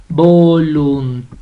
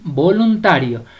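First: "voluntario" drawn out, vo-lun-TA-rio, stress on "ta"; split into syllables. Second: Said in the usual way. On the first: Shown as a demonstration. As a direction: slowly separate "voluntario", punching "ta". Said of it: "la sílaba tónica es ta". ("voluntario" sílaba por sílaba, con fuerza en "ta") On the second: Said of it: "usted la va a separar".

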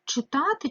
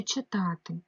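First: "Читати" with "и" in the first syllable; clear Y vowel. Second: "читати" with the first vowel said as "е"; Y turned to E. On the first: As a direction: sound out "Читати" as chy-ta-ty. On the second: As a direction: sound out "читати" as che-ta-ty. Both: Shown as a demonstration. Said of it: "тому що читанка".

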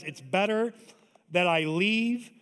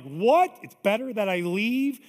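First: Drawn-out, deliberate promise; Jesus, slow and weighty. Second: Shocked, loud rising question; disbelieving disciples. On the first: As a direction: let each word land slowly. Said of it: "Jesus says". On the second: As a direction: blurt it out in disbelief. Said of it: "the disciples are like". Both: Retold or imitated.

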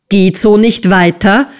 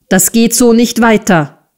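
First: Understated screech as a rising question; outraged screech. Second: "so nicht weiter" raised, then falling firmly; firm statement. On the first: Squeers parrots Nicholas, outraged rising question. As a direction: echo it in disbelief, ending on a rise. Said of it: "kreischte Squeers außer sich". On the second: Nicholas stops the schoolmaster's beating, firm falling statement. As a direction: state "Das geht so nicht weiter" with finality. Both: A narrator's reading.

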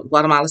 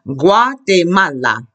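First: "Guatemala" quickly as gwah-tuh-MAH-luh; English pronunciation. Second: "Guatemala" slowly as gwa-te-MA-la; Spanish modelling. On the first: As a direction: say "Guatemala" lightly with reduced vowels. Gives the English city name. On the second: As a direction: model "Guatemala" syllable by syllable, pure vowels. Models country name for class. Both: Shown as a demonstration.

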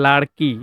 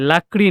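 First: লাড়কি said with ড় before k, the right Urdu form; লাড়কি modelled as the proper Urdu word for girl; correct word larki. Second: লাকড়ি said with k before ড়, the wrong way round; লাকড়ি spoken as the error to avoid; wrong word lakri. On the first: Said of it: "এটা হলো লাড়কি". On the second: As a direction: say লাকড়ি as the mistaken form, k then r. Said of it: "লাকড়ি নয়". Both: Shown as a demonstration.

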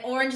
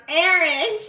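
First: Said in the usual way. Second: "orange" with an "air" vowel, AIR-inj; regional orange. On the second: Shown as a demonstration. Streamer shows how it is pronounced, "orange" as AIR-inj. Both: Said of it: "orange is pronounced orange".

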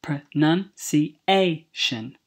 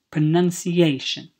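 First: PRONUNCIATION broken into slow, separate syllables. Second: Said in the usual way. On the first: Shown as a demonstration. Teacher showing students how the word is built, slow syllable-by-syllable demonstration. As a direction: say "Pronunciation" slowly, one syllable at a time, stressing the A.

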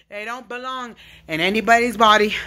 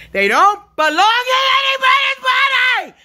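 First: Said in the usual way. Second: Real shout. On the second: Real, not acted. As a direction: shout it out as a protest. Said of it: "This yelling and screaming".

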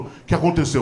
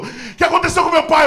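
First: Said in the usual way. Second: High, loud mock alarm; hammed-up frightened demand, pitched way up; panicked father. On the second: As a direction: cry out the question in acted panic. Father panics seeing mother cry.

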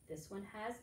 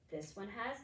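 The two takes are said the same way.

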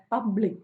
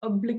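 First: public with a clear opening P; stress on P. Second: oblique, the opening P dropped; wrong pronunciation. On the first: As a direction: stress the first syllable of public. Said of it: "പി ആണ് ഇവിടെ stressed". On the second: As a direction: say oblique with a bare vowel at the start. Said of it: "എന്നല്ലല്ലോ പറയുന്നത്". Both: Shown as a demonstration.

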